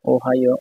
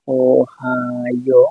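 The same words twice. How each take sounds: First: Said in the usual way. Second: Very slow, every syllable of Ohio stretched; slow dictation of Ohio, vowels held long; drawn-out sounding out. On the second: Shown as a demonstration. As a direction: stretch Ohio out as if writing along. Sounds out word while writing.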